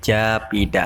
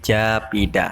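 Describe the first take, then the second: First: The p and h merge into one aspirated p. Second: The same.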